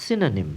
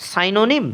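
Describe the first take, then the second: First: সিনোনিম with a short "si" at the start; correct pronunciation. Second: সাইনোনিম with "sai" at the start; wrong সাইনোনিম, SAI; wrong pronunciation. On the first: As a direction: say the right সিনোনিম. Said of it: "সঠিক উচ্চারণটি হবে". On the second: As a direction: mistaken সাইনোনিম with a long first vowel. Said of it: "তবে তুমি ভুল করছো". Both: Shown as a demonstration.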